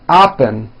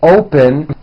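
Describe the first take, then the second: First: The first vowel is an open ah sound. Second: The first vowel is a rounded oh sound. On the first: The speaker calls it wrong. "sounds like oppen" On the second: The speaker calls it right. "the word open"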